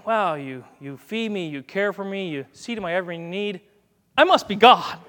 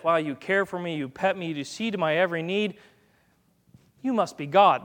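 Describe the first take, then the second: First: Self-important cat. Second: Lightly voiced grateful dog; understated awe at the owner, evenly said; adoring dog. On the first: Acted. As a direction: start modestly, burst out on the self-crowning last line. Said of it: "What's cat theology?". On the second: Dog thinking about its owner, mildly awed. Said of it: "So dog theology is this".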